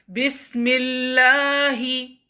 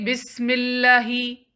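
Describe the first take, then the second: First: The 'l' sound is held for longer. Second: The 'l' sound is held only briefly. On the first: The speaker calls it right. "make it longer" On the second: The speaker calls it wrong. "Don't say"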